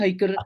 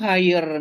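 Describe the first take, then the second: First: A k sound is heard in the middle. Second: No consonant is heard in the middle. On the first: The speaker calls it wrong. "guru masih salah" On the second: The speaker calls it right. "ternyata tuh higher"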